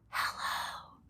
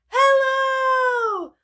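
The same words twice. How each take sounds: First: It is said very quietly. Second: It is said very loudly.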